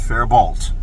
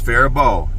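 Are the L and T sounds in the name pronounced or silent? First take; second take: pronounced; silent. First: The L and T sounds are pronounced. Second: The L and T sounds are silent. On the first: The speaker calls it wrong. "not Faribault" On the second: The speaker calls it right. "it's Faribault, The L and the T are silent"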